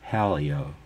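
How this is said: The name is said in a Midwestern American accent.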